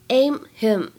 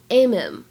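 First: The h in 'him' is pronounced. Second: The h is dropped and the words link.

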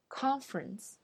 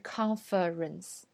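First: The middle syllable is dropped. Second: The middle syllable is fully pronounced. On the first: The speaker calls it right. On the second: The speaker calls it wrong.

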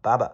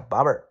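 First: It is said in a British accent, no r. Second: It is said in an American accent, with r. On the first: "英式发音读baba，有点像爸爸的感觉" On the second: "美式发音叫barber"

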